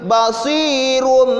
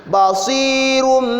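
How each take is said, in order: Both takes have the same delivery.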